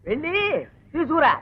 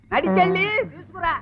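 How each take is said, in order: First: Two separate, deliberate pieces; spaced-out order. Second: High, insistent command; exasperated repeated order. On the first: Husband sends wife to fetch slips, spelling it out. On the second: Husband repeats fetch order to wife, high and exasperated. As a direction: lift the voice and drive it home. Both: Acted.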